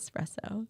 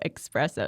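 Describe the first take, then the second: First: The word begins with an 'es' sound. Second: The word begins with an 'ex' sound. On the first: The speaker calls it right. "instead of espresso" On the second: The speaker calls it wrong. "like the X"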